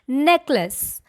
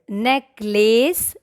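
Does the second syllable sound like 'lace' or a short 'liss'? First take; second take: liss; lace. First: The second syllable is a short liss. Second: The second syllable sounds like lace. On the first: The speaker calls it right. "the right way to say this word is" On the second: The speaker calls it wrong. "There is no lace"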